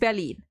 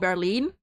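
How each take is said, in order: First: It is said with full German pronunciation. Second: It mixes English sounds with German stress. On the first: "if you want like like complete German pronunciation" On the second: "the German like stressing it"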